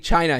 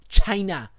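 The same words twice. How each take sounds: First: The word is said in a normal voice. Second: The word is said in an imitated voice. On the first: The speaker calls it wrong. "he can't just say China" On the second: The speaker calls it right. "He's got to say it like China"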